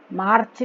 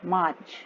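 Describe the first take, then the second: First: मार्च with a clearly sounded R, MARRCH; R pronounced hard. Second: मार्च as MAACH, R nearly silent; मार्च with a long A and no hard R; softened R. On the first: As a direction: mispronounce मार्च by rolling out the R. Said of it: "मार्च नहीं बोलना". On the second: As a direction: let the R vanish in मार्च. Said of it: "आर को जोर से नहीं बोलना है". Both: Shown as a demonstration.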